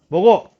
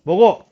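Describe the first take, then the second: First: It is said with command intonation. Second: The same.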